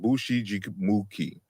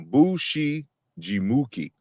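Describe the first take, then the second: First: The word is said quickly in one go. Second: The word is said slowly and broken up.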